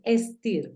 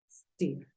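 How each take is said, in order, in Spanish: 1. La palabra empieza con una vocal antes de la s. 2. La palabra empieza directamente con el sonido s. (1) "No es steer, porque el sonido en inglés aparece desde la S" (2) "en este caso es steer"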